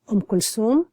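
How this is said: The middle consonant is an s sound. "So there's no th, there's a se, um, sound instead"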